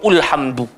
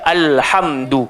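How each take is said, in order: First: The word begins with a u vowel. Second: The word begins with an a vowel. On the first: The speaker calls it wrong. "tak baca ulhamdu" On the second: The speaker calls it right. "bunyi dia alhamdu"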